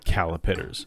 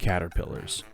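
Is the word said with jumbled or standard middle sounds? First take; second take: jumbled; standard. First: The word is said with jumbled middle sounds. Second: The word is said with standard sounds. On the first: The speaker calls it wrong. "as I used to call them" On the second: The speaker calls it right. "to say it correctly"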